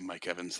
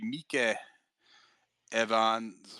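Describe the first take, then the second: First: The name is said with a plain English accent. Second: The name is said with a Japanese accent. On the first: "Mike Evans is obviously Mike Evans" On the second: "I'm gonna do this Japanese"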